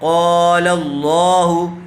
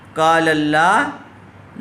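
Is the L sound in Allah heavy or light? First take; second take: heavy; light. First: The L in Allah is full and heavy. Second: The L in Allah is thin and light. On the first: The speaker calls it right. "बल्कि क़ाल अल्लाहु, क़ाफ़ को भी पुर किया जाएगा, अल्लाह को भी पुर किया जाएगा" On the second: The speaker calls it wrong. "इसको काल अल्लाह नहीं पढ़ेंगे"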